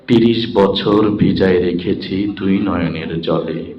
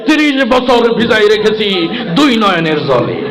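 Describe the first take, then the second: First: It is recited softly in a melodic poetic style. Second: It is declaimed loudly like a heated political speech. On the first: A contestant is reciting a poem nicely. "অনেক সুন্দর করে আবৃত্তি করছে" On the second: A politician recites in a rally-speech style. "রাজনীতির মঞ্চে গরম বক্তব্য দিয়ে অভ্যাস"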